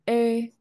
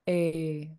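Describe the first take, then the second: First: The long vowel is said on a high pitch. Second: The long vowel is said on a low pitch.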